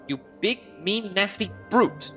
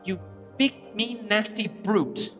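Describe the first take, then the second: First: Brute gets strong extra stress. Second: Brute gets no special extra stress.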